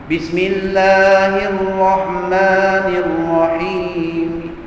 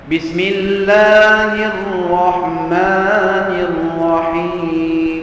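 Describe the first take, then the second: Both takes have the same delivery.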